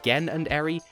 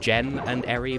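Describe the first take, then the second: First: The name begins with a hard g sound. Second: The name begins with a soft j sound. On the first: This is the pronunciation the speaker prefers to use. "I insist on pronouncing it" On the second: This is the pronunciation the joke intends. "the actual intended joke is"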